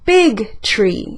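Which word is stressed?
big. The stress falls on the word big. The size of the tree is what matters. "Voy a enfatizar la palabra big"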